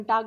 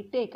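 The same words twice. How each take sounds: First: टाक with open "aa" instead of "ay"; wrong pronunciation. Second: टेक with long "ay"; one syllable टेक, "tayk", final e silent; correct pronunciation. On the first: Teacher asking students if we say it so, wrong pronunciation. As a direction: misread टाक as "taak". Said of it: "नाही, टाके नाही म्हणणार". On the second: Teacher reading out the spelled word, correct pronunciation. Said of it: "आपण टाक बोलतो का?". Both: Shown as a demonstration.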